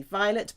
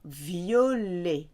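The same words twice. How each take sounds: First: Said in the usual way. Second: French violet as vee-oh-LAY; silent T. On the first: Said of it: "It's obviously violet". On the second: Shown as a demonstration. Teacher contrasts it with English, violet with silent T. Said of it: "You cannot hear the T".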